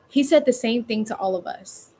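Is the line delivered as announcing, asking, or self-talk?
asking. It sounds like a question to someone. The speaker is checking with another person. "I'm talking to a scene partner... You're asking someone"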